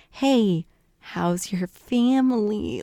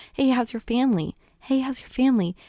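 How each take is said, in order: First: Slow, pointed fishing question; Bingley. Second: Brisk, raised-pitch friendly question; repeated eager asking. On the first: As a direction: draw out "How's your family" to pry for news. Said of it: "trying to get out information". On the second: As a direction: keep asking, imitating an eager suitor. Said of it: "Bingley keeps asking". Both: Retold or imitated.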